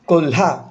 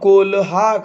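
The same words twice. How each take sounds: First: The 'l' is short and joined to 'ha'. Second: The 'l' is said as a full syllable. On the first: The speaker calls it right. "ह्या लचा उच्चार छोटा करायचा, अर्धा करायचा" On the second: The speaker calls it wrong. "काही मुलं कोल्हा करतात"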